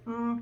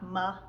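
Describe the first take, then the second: First: A short, clean m with no vowel after. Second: An m followed by an extra vowel sound. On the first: The speaker calls it right. "you want to make sure it's mm" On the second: The speaker calls it wrong. "not ma"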